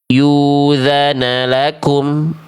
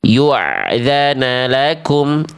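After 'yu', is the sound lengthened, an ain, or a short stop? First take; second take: lengthened; ain sound. First: The sound after 'yu' is drawn out long. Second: The sound after 'yu' is a flowing ain. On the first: "bunyi hamzahnya dipanjangkan" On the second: "bunyi hamzah sukunnya jadi ain"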